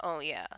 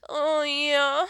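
First: Low mock moan; understated, lower-pitched sample of a moan. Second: Higher, louder put-on moan; drawn-out sample of a moan, pitched up and loud; mock moan. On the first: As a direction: toss it off lower and short. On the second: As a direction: push it up and out like a showy moan. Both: Shown as a demonstration. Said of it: "Like, what's your favorite?".

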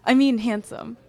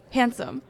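First: Handsome corrected, louder; stress on handsome. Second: Said in the usual way. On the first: Acted. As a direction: land the word handsome firmly.

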